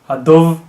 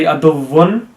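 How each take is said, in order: First: The word ends abruptly without its final vowel ending. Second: The word ends with its full final vowel ending. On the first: The reader stops at this word. The speaker calls it right. "we stop at duv because that's what the vowel would sound like if there was a jazm on top of it" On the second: The reader carries on reading. The speaker calls it wrong. "you don't say aduvun and stop"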